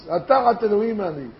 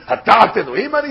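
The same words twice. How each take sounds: First: "Hatachat Elohim Ani" said plainly with a falling, settled ending; stated as fact. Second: "Hatachat Elohim Ani" tossed off quickly as a rhetorical question. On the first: Rabbi showing the right reading: plain factual statement. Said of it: "he's saying a fact". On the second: Rabbi showing the wrong reading: quick rhetorical question. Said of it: "He's not saying it as a question, as rhetorically". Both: Shown as a demonstration.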